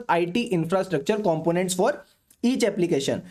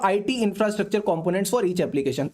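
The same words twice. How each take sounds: First: Slow dictation. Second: Restated slowly. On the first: Dictating point for notes. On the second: Restating point, less slowly. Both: Shown as a demonstration.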